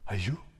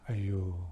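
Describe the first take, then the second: First: It sounds like reacting to bad news. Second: It sounds full of pity for someone.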